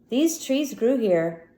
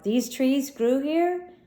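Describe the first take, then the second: First: The voice falls at the end like a statement. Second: The voice rises at the end like a question.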